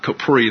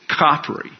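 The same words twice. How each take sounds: First: The name is said in a French-sounding way. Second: The name is said in a plain English way. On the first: The speaker calls it wrong. "not Capri. That sounds French" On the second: The speaker calls it right. "It's Capri"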